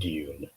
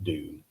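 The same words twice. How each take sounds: First: It is said with a British pronunciation. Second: It is said with an American pronunciation. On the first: "as a dedicated Englishman, I I call it Dune" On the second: "a lot of Americans call it Dune"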